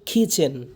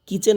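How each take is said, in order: First: The k sound is aspirated, with a puff. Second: The k sound is plain, without a puff. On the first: The speaker calls it right. "কি হবে?" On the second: The speaker calls it wrong. "কিচেন না কিন্তু"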